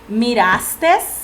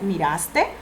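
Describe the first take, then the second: First: The word ends with an added s sound. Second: The word ends without any added s sound. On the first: The speaker calls it wrong. "le ponemos una S al final y no debemos ponérsela" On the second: The speaker calls it right. "La palabra es miraste"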